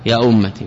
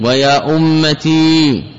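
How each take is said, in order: First: يا أمتي ending in a brief "i"; short final kasra. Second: ويا أمتي with a long, held "ee" ending; slow demo of the wrong form, stretching the ي of ويا أمتي; long final ya. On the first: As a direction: say يا أمتي with the last vowel kept short. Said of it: "بفتح التاء وكسرها". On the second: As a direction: draw out the ي at the end of ويا أمتي. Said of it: "ولا يجوز إثبات الياء". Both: Shown as a demonstration.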